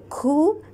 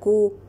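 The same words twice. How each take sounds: First: The k is followed by too much air. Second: The k has a stop with no air. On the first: "then there is too much air" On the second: "then there is no air"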